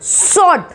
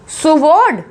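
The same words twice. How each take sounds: First: स्वॉर्ड as "sord", no w; correct pronunciation. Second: सुवॉर्ड with the w sounded; wrong pronunciation. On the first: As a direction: drop the w in स्वॉर्ड. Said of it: "लेकिन ये है स्वॉर्ड". (स्वॉर्ड को "सॉर्ड" बोलकर) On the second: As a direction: split सुवॉर्ड as "su-vord". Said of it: "सुवॉर्ड ही बोलते होंगे आप लोग". (सुवॉर्ड में "व" बोलकर) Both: Shown as a demonstration.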